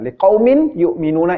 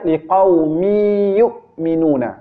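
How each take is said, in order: First: The n is pronounced separately before the next word. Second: The n merges into the following y sound. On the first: This is how it is written. "itu tulisannya" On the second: This is how it is recited. "Bacanya ... itu dileburkan"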